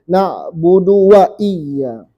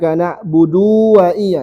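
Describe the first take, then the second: First: The vowel of du is kept short. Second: The vowel of du is held long. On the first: The speaker calls it right. "Tidak boleh" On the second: The speaker calls it wrong. "Orang kebanyakannya baca panjang ini"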